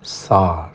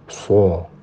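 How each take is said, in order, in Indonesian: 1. Vokalnya terbuka, bibir tidak membulat. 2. Vokalnya diucapkan dengan bibir membulat dan maju ke depan. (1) "mengucapkan shad itu ya sa" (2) "bukan so"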